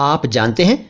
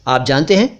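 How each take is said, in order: The two takes are said the same way.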